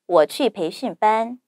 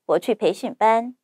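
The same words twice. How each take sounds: First: It is spoken at natural native speed. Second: It is spoken quickly. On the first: "두 번째, 원어민 발음 속도로 자연스럽게" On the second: "세 번째, 빠르게"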